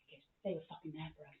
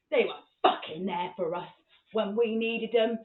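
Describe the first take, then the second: First: Soft, low, quick justification; imitated dad, quietly intense; low intense explanation. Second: "fucking there for us" firmly punched; insistent, with "needed" drawn out slowly; emphatic repeat. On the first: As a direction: say it fast under the breath. First take, dad's low threat. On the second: Retold or imitated.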